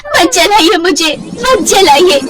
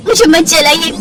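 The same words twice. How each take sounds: First: Mild mock scream. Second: High, begging; frightened plea. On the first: Simran cries out as the hot wood touches her, high slow plea. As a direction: cry out in remembered terror. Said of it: "जोर जोर से चिल्लाती है". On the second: Acted. Simran pleads not to be burned, high and frightened.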